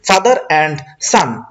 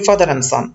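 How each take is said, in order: First: The d at the end of 'and' is pronounced. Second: The d at the end of 'and' is dropped. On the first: The speaker calls it wrong. "আমরা যদি জোর উচ্চারণ করি father অ্যান্ড সান, এভাবে আমরা বলি না" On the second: The speaker calls it right. "আমরা বলি ফাদার অ্যান্ড সান।"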